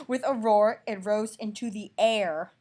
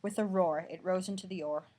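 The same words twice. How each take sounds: First: Loud, slow, booming reread; loud slow mock-dramatic reread; dramatic roar. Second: Said in the usual way. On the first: Shown as a demonstration. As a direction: roar it out big.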